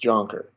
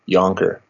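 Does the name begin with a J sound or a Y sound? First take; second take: J sound; Y sound. First: The name begins with a J sound. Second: The name begins with a Y sound. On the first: This is the childhood, non-Dutch way of saying it. "when I was a kid, I was Jonker" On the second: This is the original Dutch way of saying it. "the original pronunciation, Yonker, but spelled with a J"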